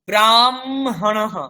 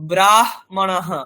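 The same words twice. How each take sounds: First: The m sound comes before the h sound. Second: The h sound comes before the m sound. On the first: This is how it is usually said. "উচ্চারণ করছি যেন ময়ের সাথে হ যোগ হয়েছে" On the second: This follows the written order. "যেমন লেখা আছে সেরকম উচ্চারণ করলে"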